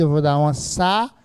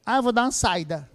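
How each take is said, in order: First: Saída as sa-Í-da, stress on the í; saída with a clear hiatus. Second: Saída said as sai-da, diphthong; saída without the hiatus, quick and casual; wrong stress demo. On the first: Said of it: "Eu não vou dar uma saída". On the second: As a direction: run saída together as two syllables, sai-da. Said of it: "seria saída". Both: Shown as a demonstration.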